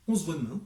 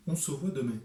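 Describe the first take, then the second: First: «On se voit demain» in crisp Parisian French, final e silent; Parisian accent. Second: «on se voit demain» in a southern French accent, «se» and «demain» given a full open vowel. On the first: Author showing viewers the Parisian accent, crisp. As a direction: clip «demain» short, the Parisian way. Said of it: "comme on le dit à la parisienne". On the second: Author contrasting it with Paris, southern French accent. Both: Shown as a demonstration.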